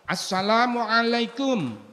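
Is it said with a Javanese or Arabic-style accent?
Arabic-style. It is said with careful Arabic pronunciation.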